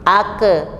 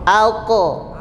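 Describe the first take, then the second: First: The final consonant echoes with a thin e sound. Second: The final consonant echoes with a thick o sound. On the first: The speaker calls it wrong. "Kalau ke, ke tipis bunyinya e" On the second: The speaker calls it right. "Bunyinya pantulannya o"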